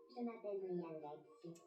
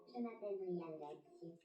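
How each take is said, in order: Both takes have the same delivery.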